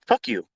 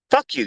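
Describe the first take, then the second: First: Said in the usual way. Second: Defiant yell. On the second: Real, not acted. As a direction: fire the Fuck you back at full volume. Answering complaining students.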